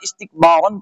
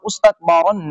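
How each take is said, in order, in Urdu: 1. یہ لفظ حرف علت 'i' سے شروع ہوتا ہے۔ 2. یہ لفظ 'i' کے علاوہ کسی اور حرف علت سے شروع ہوتا ہے۔ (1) "یہ جو زیر ہے یہ الف کے نیچے آئے گی" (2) "نہیں پڑھا جائے گا"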